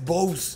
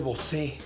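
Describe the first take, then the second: First: The stress falls on the first syllable. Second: The stress falls on the last syllable. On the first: It is the brand's actual name. The speaker calls it right. "Es Bose" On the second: The name is linked to a famous singer. The speaker calls it wrong. "todo el mundo le dice Bosé"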